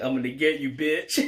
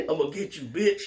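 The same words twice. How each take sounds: First: Hammed-up threat, a bit higher and louder; mock threat. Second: The threat pushed much higher, laughing at it; squeaky mock threat. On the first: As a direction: ham up the revenge line. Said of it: "and he's like". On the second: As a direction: parody the villain with a squeak on bitch.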